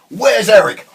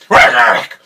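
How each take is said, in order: First: It is said in a normal voice. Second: It is said in a gravelly Batman voice.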